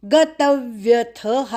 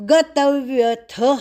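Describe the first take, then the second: Both takes have the same delivery.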